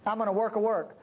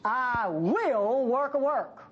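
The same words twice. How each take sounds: First: Said in the usual way. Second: Slow, measured divine promise; lightly voiced God, slow and solemn. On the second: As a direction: speak each word slowly, as God. God's promise quoted slowly.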